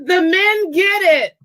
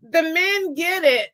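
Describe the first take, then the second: First: Excited shout. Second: Said in the usual way. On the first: Real, not acted. Cheering the men's correct answer.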